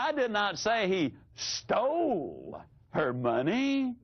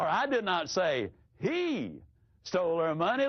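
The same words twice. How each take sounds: First: The stress is on the word stole. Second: The stress is on the word he.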